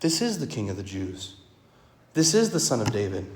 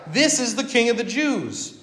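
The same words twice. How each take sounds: First: Lower, quiet and earnest, meaning every word; preacher affirming the title as true; sincere. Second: Higher, sneering title read out to jeer; mocking. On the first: Shown as a demonstration. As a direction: say it softly as plain truth. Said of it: "it's a true statement". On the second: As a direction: proclaim it with scorn, as a jeer at the crowd. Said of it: "the Romans mean it mockingly".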